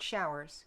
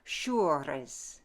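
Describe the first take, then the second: First: It has a modern vowel and plain R. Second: It has a French vowel and rolled R. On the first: The speaker calls it wrong. "not showers" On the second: The speaker calls it right. "Frenchify it... change the pronunciation of the long vowel, add that rolled R"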